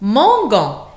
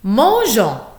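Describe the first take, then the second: First: The g is hard, as in go. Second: The g is soft, like zh. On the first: The speaker calls it wrong. "et non pas gon ... c'est faux" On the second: The speaker calls it right. "afin de bien prononcer Jean"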